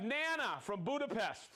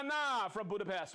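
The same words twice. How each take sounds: First: Nana with a flat A as in "nanny"; first-guess pronunciation. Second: Nana as NAH-nah, open A; corrected pronunciation. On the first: Host welcoming a viewer from Budapest, Nana mispronounced as NAN-uh. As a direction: say Nana as NAN-uh, rhyming with banana's end. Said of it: "not Nana". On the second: Host re-announcing the Budapest viewer, Nana said as NAH-nah. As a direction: say Nana with "ah" in both syllables. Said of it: "It's Nana". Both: Real, not acted.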